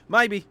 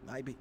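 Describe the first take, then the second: First: "Maybe" belted out high and loud. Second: Soft low muttered maybe; quiet. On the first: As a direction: shout "Maybe" with big energy. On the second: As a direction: mumble "Maybe" under your breath. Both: Real, not acted. Repeats the word two ways.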